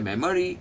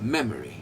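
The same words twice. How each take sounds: First: The stress is not on the first syllable. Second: The stress is on the first syllable. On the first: The speaker calls it wrong. "ये सब गलत है" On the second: The speaker calls it right. "पहला उठता है memory"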